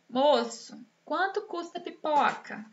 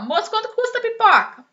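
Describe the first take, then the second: First: There is a clear pause after Moço. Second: It is said quickly without a pause after Moço.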